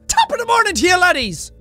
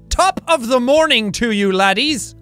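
First: It is said fast. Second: It is said slowly.

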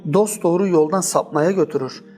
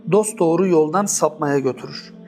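No difference in how they are said.

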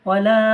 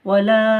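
The two takes are said the same way.

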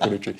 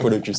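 First: The final s sound is silent. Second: The final s sound is pronounced. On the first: The speaker calls it wrong. "c'est pas Polocu" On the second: The speaker calls it right. "c'est Polocus"

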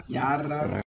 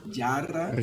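No difference in how they are said.

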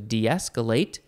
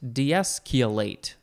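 First: It uses the main, usual pronunciation. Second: It uses a variant pronunciation of the middle. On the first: "de-escalate is the main one" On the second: "I guess it's keolate, de-escalate. Some people like to say that"

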